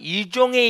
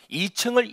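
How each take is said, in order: First: It is said with a twisted, foreign-sounding accent. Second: It is said with plain Korean pronunciation.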